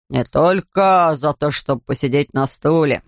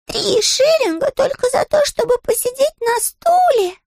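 First: Low, slow correcting attendant; gruff ticket man. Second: High, slow little bear voice; indignant high bear, drawn out; Paddington voice. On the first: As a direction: lean on только, low and slow. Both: Acted.

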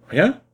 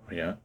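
First: Sharp high rising disbelief; incredulous echo. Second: Low, soft resigned answer; flat reply. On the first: Gendarme doubting the vagabond, rising disbelief. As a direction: snap it back up high, disbelieving. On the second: Vagabond answering the gendarme, soft and resigned. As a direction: drop it low and quiet. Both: Acted.

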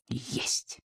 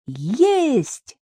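First: Very soft, voiceless whisper; hushed echo of a cry. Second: High, stretched distant call; jubilant, soaring shout without extra volume; triumphant cry. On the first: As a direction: breathe it out barely audibly. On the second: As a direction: cry out in triumph on a long swooping note. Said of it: "закричала она торжествующе". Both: A narrator's reading.

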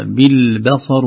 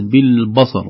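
First: بالبصر with a thin "be" before heavy ṣad; light ba. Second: بالبصر with a dark "bɑ" matching the ṣad; heavy ba, wrong way. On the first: Teacher showing the correct reading, light b in بالبصر. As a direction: keep the ب of بالبصر light, slowly. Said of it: "الباء قبل الصاد". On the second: Teacher showing the mistake, heavy b in بالبصر. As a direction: thicken the ب of بالبصر. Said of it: "وليست بالبصر". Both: Shown as a demonstration.

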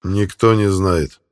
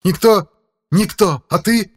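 First: Icy voice. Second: High, loud mocking rage; furious demon shriek. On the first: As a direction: say it slow and ice-cold. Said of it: "ответил ледяным голосом Филипп". (ледяной голос) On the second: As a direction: spit the words back in fury. (яростный крик демона) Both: A narrator's reading.

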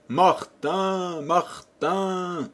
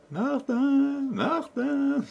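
First: Higher, calling out desperately across the field; calling at the top of his lungs. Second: Much higher, teasing echo voice; mocking echo. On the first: Acted. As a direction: shout for the lost donkey in despair. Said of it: "il se prit à crier à tue-tête". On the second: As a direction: echo the name back like a cheeky hidden child. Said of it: "qui répétait en ricanant".

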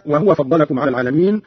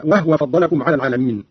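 First: Said in the usual way. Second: وهو with no vowel on the h, "wahwa"; silent-vowel ha. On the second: Shown as a demonstration. Teacher shows Qalun's reading, وهو said "wahwa". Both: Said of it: "قرأ قالون بإسكان الهاء هكذا".

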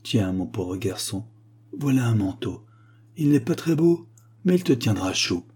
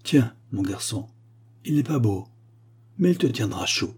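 First: Tender mother. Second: Lightly voiced tender mother; a hint of a mother's tenderness; gentle mother. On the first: Acted. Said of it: "la brave femme me dit". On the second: An imagined old mother gives her son a coat, lightly tender. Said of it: "le matin a dit".

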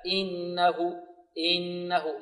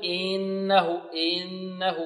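First: إنه with a short, smooth hamza; easy light hamza. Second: إنه with the hamza drawn out; stretched hamza. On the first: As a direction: say إنه easily, without stretching. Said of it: "هكذا". (إنه بهمزة سهلة سلسة) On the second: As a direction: show the wrong stretched hamza. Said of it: "لا نقول". (إنه بهمزة ممطوطة خطأ) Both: Shown as a demonstration.

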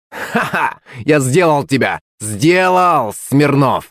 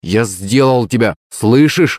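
First: Gloating, higher-pitched crow of victory; spiteful cry. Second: Faltering boast, rising on слышишь; less confident. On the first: Kolya Demidov gloats to rival Smirnov, spiteful cry. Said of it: "злобно закричал Коля Демидов". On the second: Boy repeats his boast as fear appears, less confident. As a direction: insist on the win with wavering confidence. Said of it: "уже как-то более неуверенно". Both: A narrator's reading.

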